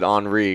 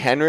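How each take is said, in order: First: The name is pronounced the French way. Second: The name is pronounced the plain English way. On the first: "are we gonna pronounce it Henri because it seems a little French?" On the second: "Is that gonna be Henry"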